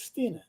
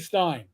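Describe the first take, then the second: First: The vowel sounds like 'ee'. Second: The vowel sounds like 'eye'. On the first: This is the family's proper name. "My last name is Steen" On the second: This is how the family actually says it. "I always say Stein"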